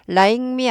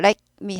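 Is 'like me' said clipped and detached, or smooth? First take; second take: smooth; clipped. First: The two words run together smoothly. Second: The words are clipped and detached, staccato. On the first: The speaker calls it wrong. "like me 아니고" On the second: The speaker calls it right. "like me 하고 스타카토 꼭 찍어주셔야 돼요"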